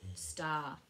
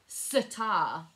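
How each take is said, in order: First: The 's' runs straight into the 't' with no vowel. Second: An extra vowel is inserted between the 's' and the 't'. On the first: The speaker calls it right. "We say snail, spoon and star" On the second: The speaker calls it wrong. "because we don't say sitar"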